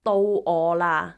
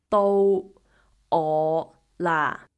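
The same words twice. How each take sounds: First: It is said at normal speed. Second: It is said very slowly.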